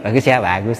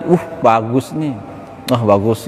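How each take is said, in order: First: Mocking praise. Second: Said in the usual way. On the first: Preacher showing insincere praise of an outfit, mocking. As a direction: fake compliment after a snicker. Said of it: "Tapi kan ngejek gitu". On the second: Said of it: "gitu aja".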